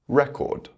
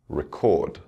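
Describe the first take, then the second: First: The stress is on the first syllable. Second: The stress is on the second syllable. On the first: It is used as a noun. "the noun will have its word stress on the first syllable" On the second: It is used as a verb. "with the verb, the stress will fall on the second syllable"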